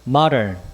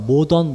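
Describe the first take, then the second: First: It is said with English pronunciation. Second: It is said as a Korean loanword. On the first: The speaker calls it right. "발음이 이렇게 된다" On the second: The speaker calls it wrong. "우리가 모던, 모던 하는데"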